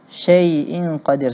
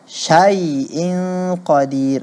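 First: The first vowel sounds like e. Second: The first vowel sounds like a. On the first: The speaker calls it wrong. "seperti huruf E" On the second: The speaker calls it right. "perlu berhati-hati"

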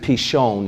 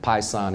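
First: The middle consonant is a 'sh' sound. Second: The middle consonant is an 's' sound. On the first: "it's actually Pishon is how it's pronounced" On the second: "Pison is how most people pronounce it"

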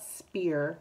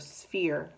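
First: The word begins with an sp sound. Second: The word begins with an sf sound. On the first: The speaker calls it wrong. "they see the S and the P and they'll say spear, but it's not spear" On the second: The speaker calls it right. "make sure you say it S, F, S, F, ear"

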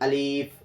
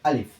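First: The vowel is stretched and drawn out. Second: The vowel is short, not drawn out. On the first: The speaker calls it wrong. "অনেকেই আছে এইভাবে টানে" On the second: The speaker calls it right. "আলিফে কোনো টান হবে না।"

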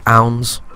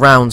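First: The word begins without any R sound. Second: The word begins with a clear R sound. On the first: The speaker calls it wrong. "I say ounds" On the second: The speaker calls it right. "Instead of saying rounds"

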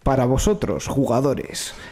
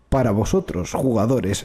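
First: It is said in the normal speaking voice. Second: It is said in a deliberately deep voice. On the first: "Tengo una voz de mierda, no me gusta" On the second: "Voz grave, por favor"

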